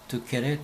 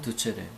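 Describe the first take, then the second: First: The middle consonant is a hard k sound. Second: The middle consonant is a ch sound. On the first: This is the classical reading. "고전으로 읽는 방법" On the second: This is the church reading. "교회에서 읽는 방법"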